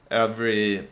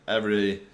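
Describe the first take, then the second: No difference in how they are said.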